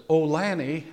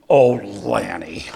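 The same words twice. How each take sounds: First: "Oh, Lanny" asked lightly, like a question is coming; a wife's mild, inquiring "Oh, Lanny"; Ruth Ann's curious "Oh, Lanny". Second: "Oh, Lanny" said low, loud and slow, a warning; you're headed for the doghouse, "Oh, Lanny"; Ruth Ann's scolding "Oh, Lanny". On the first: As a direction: lift "Oh, Lanny" gently as if about to ask something. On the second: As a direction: drop "Oh, Lanny" into a stern, heavy warning. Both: Retold or imitated. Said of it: "There's a difference that when Ruth Ann says".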